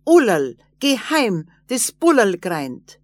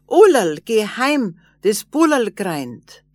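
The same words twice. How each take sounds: First: Loud call shouted back while running off; little man shouting back as he runs away. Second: Calling out loud. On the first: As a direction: yell it over the shoulder. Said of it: "und schrie zurück". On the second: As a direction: call her home at full voice. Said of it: "Da kam ihr Mann und schrie". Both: A narrator's reading.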